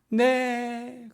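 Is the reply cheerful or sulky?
cheerful. It is said cheerfully on a high pitch.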